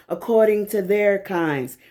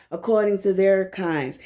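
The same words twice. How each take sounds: The two takes are said the same way.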